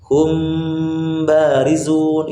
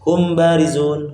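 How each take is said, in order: First: The nasal m is held long before b. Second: The nasal m is rushed and cut short. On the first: The speaker calls it right. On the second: The speaker calls it wrong. "Jangan kita baca"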